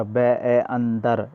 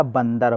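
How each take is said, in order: First: बै ए अंदर said very slowly, each part separate; बंदर split slowly into बै ए अंदर, like a teacher; broken into sounds. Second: Said in the usual way. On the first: Shown as a demonstration. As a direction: spell out बै ए अंदर syllable by syllable, drawn out. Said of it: "इस तरह से बोल रहे हैं ना". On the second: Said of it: "बंदर कैसे बोलते हैं?".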